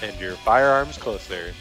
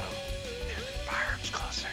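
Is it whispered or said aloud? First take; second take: aloud; whispered. First: It is said aloud, not whispered. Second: It is said in a whisper.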